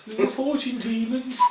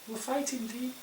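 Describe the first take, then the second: First: It is said in a Birmingham accent. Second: It is said in the speaker's ordinary accent. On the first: The speaker calls it right. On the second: The speaker calls it wrong.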